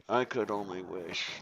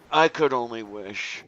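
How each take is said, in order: First: Softer, lower, half to herself; quiet wistful echo. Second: Said in the usual way. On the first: Real, not acted. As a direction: repeat it wistfully under the breath. Repeated wish, softer echo.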